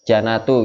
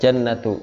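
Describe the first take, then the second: First: The n sound is short, single. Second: The n sound is held long, doubled.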